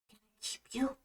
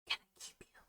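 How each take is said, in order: First: It is spoken in a normal voice. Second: It is whispered very gently.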